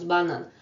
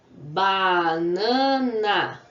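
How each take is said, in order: First: Said in the usual way. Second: "banana" very slow and loud, ba, na, na; teacher sounding out "banana" in three long beats; syllable by syllable. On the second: Shown as a demonstration. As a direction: stretch out each syllable of "banana". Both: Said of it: "quantas vezes eu abro a boca".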